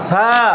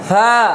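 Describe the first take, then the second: First: The consonant is a soft, weak lisped sound. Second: The consonant is a soft, weak lisped sound.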